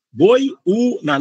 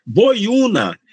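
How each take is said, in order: First: "Boiúna" split into boi-ú-na; syllable by syllable. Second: Said in the usual way. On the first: Shown as a demonstration. Teacher showing the diphthong before U, "Boiúna" syllable by syllable. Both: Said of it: "tem um ditongo antes".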